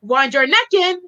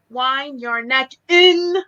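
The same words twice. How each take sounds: First: "neck" stressed, words run together. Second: Slow, spaced words with weight on IN; stress on IN. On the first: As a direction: link "Wind your" and land on "neck". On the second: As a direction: separate each word and lean on "in". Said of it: "I would say". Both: Shown as a demonstration.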